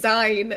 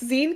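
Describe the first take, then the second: First: The word does not rhyme with magazine. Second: The word rhymes with the end of magazine. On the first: This is how most other people say it. The speaker calls it wrong. "everyone keeps saying Zine" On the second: The word is short for magazine. The speaker calls it right. "it's Zine 'cause it's magazine"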